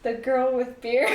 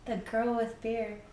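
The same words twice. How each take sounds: First: Louder with a rise on Beer; proud announcement. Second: Soft aside. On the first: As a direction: announce it like a show title. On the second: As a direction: toss the name off quietly. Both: Real, not acted. Names her channel twice.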